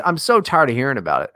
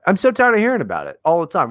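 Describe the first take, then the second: First: Said in the usual way. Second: "so" punched, words rushed out; more emphatic, faster. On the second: Real, not acted. To his co-host, repeating it faster and more emphatic. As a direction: push harder, faster, fed up with it. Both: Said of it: "repeated with more force".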